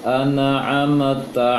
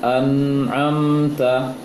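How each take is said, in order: First: The silent n is released with a bounce. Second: The silent n is held without a bounce. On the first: The speaker calls it wrong. "Nunnya terpantulkan" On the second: The speaker calls it right.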